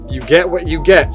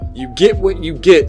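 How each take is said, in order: First: Get is said with the vowel of yet. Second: Get is said with the vowel of fit. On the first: This is how northerners say it. "In the North, you might say" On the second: This is how southerners say it. "We say"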